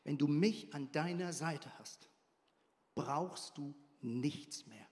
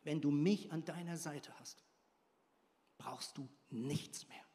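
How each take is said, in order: First: Voiced, very slow and soft; slow, quiet promise. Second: Whispered promise. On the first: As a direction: let each word sink in slowly. Repeats promise, slower. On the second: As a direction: breathe it out like a secret. Repeats promise, first softly. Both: Shown as a demonstration.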